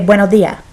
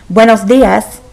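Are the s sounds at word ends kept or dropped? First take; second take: dropped; kept. First: It is said Chilean-style, final s sounds dropped. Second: It is said with the final s sounds kept.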